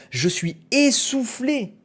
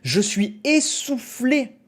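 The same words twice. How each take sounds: The two takes are said the same way.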